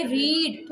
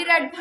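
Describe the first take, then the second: First: रीड with the ee drawn out a little; long vowel demo. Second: रेड said with a short, clipped e; short vowel demo. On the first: Teacher shows pupils the long vowel, drawn out gently. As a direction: stretch the vowel in रीड slightly. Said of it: "थोड़ा सा हमने इसे खींचना है". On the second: Teacher shows pupils the short vowel, quick and even. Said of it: "अभी short vowel sound है". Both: Shown as a demonstration.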